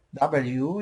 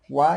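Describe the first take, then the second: First: "W" spelled out as double-you; the letter "W" as several syllables, double-you; English letter W. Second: W named as "Wa", one syllable with ah; "Wa" with an open ah; Quechua letter W. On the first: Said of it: "W you pronounce in English". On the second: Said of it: "Wa you pronounce in Quechua". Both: Shown as a demonstration.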